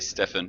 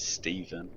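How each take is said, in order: First: The middle consonant is an F sound. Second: The middle consonant is a V sound. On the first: The speaker calls it wrong. "A lot of people say Stefan" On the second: The speaker calls it right. "correct pronunciation is Steven"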